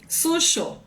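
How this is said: The middle consonant is a strong sh-like sound.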